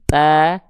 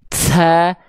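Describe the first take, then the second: First: The breath comes out as a short puff. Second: The breath flows out long and heavily. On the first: The speaker calls it right. "cuman percikan aja" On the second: The speaker calls it wrong. "jangan juga ta"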